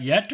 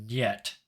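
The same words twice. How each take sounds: First: Said in the usual way. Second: "yet" said with an n at the start, as nyet; Russian nyet. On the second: Shown as a demonstration. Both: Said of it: "Was that yet or yet?".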